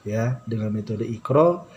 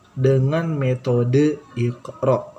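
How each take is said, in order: First: Said in the usual way. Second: "dengan metode Iqra" said slowly, each word weighted; teacher stressing "dengan metode Iqra" word by word; slow emphasis. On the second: Shown as a demonstration.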